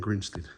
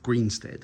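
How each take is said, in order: First: The first syllable sounds like 'grin'. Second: The first syllable sounds like 'green'. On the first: This is how people commonly say it. "people pronounce it Grinstead" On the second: This is the name as written. "Greenstead, I should say"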